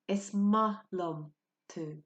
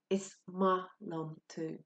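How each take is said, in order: First: The second word is said like 'ma'. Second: The same.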